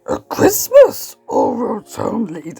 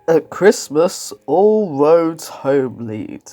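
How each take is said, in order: First: It is read in a put-on character voice. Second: It is read in an ordinary, normal reading voice. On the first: The speaker calls it right. "It should be" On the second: The speaker calls it wrong. "You're reading it in the wrong, you know, the wrong voice"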